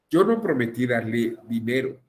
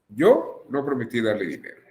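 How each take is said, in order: First: There is no pause after "Yo". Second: There is a pause after "Yo".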